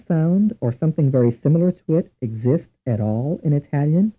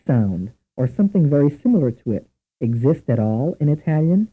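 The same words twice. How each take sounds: The two takes are said the same way.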